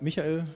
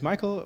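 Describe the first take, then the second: First: The name is pronounced the German way. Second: The name is pronounced the English way.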